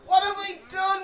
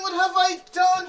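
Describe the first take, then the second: First: Higher, louder despairing cry; anguished cry. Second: Louder despair with "I" stressed; anguished cry, stress on I. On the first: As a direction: cry out, holding back tears. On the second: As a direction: cry out, blaming yourself on "I". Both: Acted. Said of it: "he cried".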